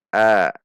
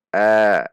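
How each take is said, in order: Both takes have the same delivery.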